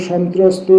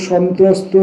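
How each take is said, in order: The two takes are said the same way.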